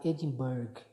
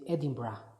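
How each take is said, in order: First: The name is read out the way it is spelled. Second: The name is said the way locals say it. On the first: "you write it like Edinburgh" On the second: "they say Edinburgh, the way they pronounce it"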